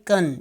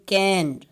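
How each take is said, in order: First: The vowel is reduced and weak. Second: The vowel is full and clear. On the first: "we will say kan, weak form" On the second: "Instead of saying can"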